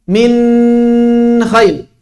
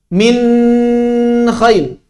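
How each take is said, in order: No difference in how they are said.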